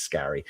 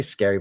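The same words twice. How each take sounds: First: "Scary" with a short a, as in "carry"; corrected Scarry. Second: "Scary" with the vowel of "air"; usual Scary. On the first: Host corrects the author's surname, "Scary" as SKA-ree. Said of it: "but I think it's Scary". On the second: Host admits his habitual saying, "Scary" as SKAIR-ee. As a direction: say "Scary" like the word for frightening. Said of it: "I always say Scary". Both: Shown as a demonstration.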